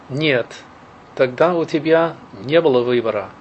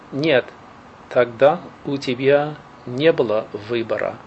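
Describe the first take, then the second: First: It is said at normal speed. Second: It is said slowly.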